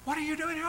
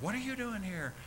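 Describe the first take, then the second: First: Shrill-high What are you doing here; much higher astonished question; high surprised. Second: Surprised. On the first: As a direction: squeal it in delighted shock. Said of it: "and just". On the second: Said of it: "and they looked". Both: Retold or imitated.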